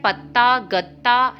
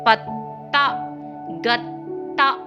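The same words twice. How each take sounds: First: The doubled t is said short, without force. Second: The doubled t is held long, with force. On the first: The speaker calls it wrong. "आप हमेशा बोल देते हैं पत्ता गत्ता, लेकिन नहीं" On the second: The speaker calls it right. "उसके उच्चारण पर कुछ बल देना है"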